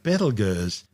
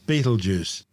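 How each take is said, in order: First: The name does not sound like 'Beetlejuice'. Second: The name sounds like 'Beetlejuice'.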